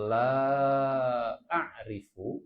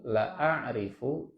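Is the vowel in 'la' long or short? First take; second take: long; short. First: The vowel in la is drawn out long. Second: The vowel in la is cut short. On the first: The speaker does not know. "dua harokat la-nya, artinya saya tidak tahu" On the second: The speaker truly knows. "saya benar-benar tahu"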